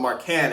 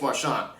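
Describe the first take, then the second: First: The middle consonant is a hard k sound. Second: The middle consonant is a ch sound. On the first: The speaker calls it wrong. "I mispronounced his name, um, and I kept calling him Marcan" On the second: The speaker calls it right. "It's Marchand"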